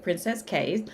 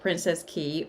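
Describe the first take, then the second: First: The last word rhymes with 'say'. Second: The last word rhymes with 'see'. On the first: "or you can pronounce it Princess Cay" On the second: "something about Princess Key"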